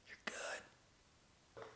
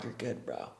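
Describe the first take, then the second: First: Breathy whisper of "You're good". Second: Much softer, low-key "You're good, bro"; hushed reassurance. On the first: Bystander reassuring the parker, in a whisper. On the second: Bystander hushing the yelled-at guy, quietly. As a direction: murmur "You're good" down low to settle him. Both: Retold or imitated. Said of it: "They're like".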